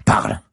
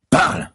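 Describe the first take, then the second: First: Loud command; barked order. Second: Loud repeated command; louder barked order. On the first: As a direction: bark it at him. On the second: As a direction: bark it harder. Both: Acted. Cop demands answer.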